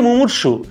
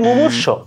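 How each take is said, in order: First: The word ends on an u vowel. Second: The word ends on a consonant sound. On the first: The speaker calls it right. "আসলে শব্দটা হচ্ছে মুমূর্ষু" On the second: The speaker calls it wrong. "সম্পূর্ণ ভুল বলি"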